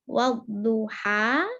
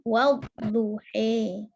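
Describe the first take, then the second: First: The final vowel is an open 'a' sound. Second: The final vowel is tilted toward an 'e' sound. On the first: "Kalau fathah, saya ulang karo fathah" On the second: "Kalau imalah"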